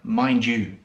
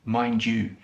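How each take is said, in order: First: The words merge, with a j sound joining them. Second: The words merge, with a j sound joining them.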